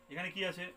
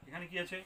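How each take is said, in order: Both takes have the same delivery.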